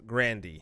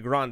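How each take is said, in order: First: The name ends with a 'dee' sound. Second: The name ends without a 'dee' sound. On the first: The speaker calls it right. "It's Grandy. Grand D E E" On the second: The speaker calls it wrong. "Grande is not actually Grande"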